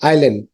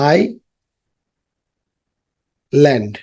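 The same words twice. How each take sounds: First: Said in the usual way. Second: island drawn out very slowly, syllable by syllable; slow teacher modelling of island; slowly stretched. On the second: Shown as a demonstration. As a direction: stretch island out long for the class to copy. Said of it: "slow drawn-out repeat".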